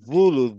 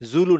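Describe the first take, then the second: First: The first sound has the tongue between the teeth. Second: The first sound is a plain z sound. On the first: The speaker calls it right. "জিভটা বের হয়ে আসবে" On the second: The speaker calls it wrong. "জুলু না"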